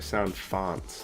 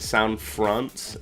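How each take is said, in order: First: The second word has no r after the f. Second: The second word has an r after the f. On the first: The speaker calls it right. "they're sound fonts" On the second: The speaker calls it wrong. "for some reason I was calling them sound fronts"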